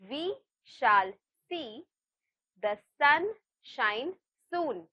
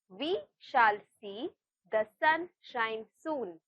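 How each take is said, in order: First: It is said at a slow, normal pace. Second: It is said at a faster pace. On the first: "I'll repeat" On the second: "let's try saying this a little faster"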